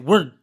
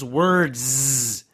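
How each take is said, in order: First: The word ends without any z sound. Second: The word ends with a clear z sound. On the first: Listeners do not hear the plural. "a lot of speakers will cut that sound" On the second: The word is heard as plural. "it's got a z sound at the end"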